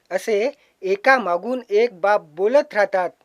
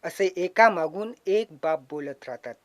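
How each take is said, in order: First: Slower, fuller reciting voice; poem recital. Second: Said in the usual way. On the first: Shown as a demonstration. Poet reciting his verse to the audience, slow and full. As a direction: declaim it to the hall. Poet rehearses line twice.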